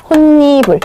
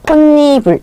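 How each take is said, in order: Both takes have the same delivery.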